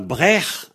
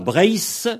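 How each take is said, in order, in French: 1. Le mot se termine par un son h guttural. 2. Le mot se termine par un son s sifflant. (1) "et on a Brech en Ventais. Le ZH, il se prononce H en Ventais" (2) "on a Brace, en Cornouaillais en Trégor"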